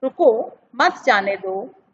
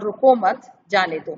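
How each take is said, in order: First: "रुको", short break, then "मत जाने दो"; pause after रुको. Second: "रुको मत" joined, short break, then "जाने दो"; pause after मत. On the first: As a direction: set "रुको" apart, keep "मत जाने दो" together. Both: Shown as a demonstration. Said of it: "जैसे कि आपने देखा था".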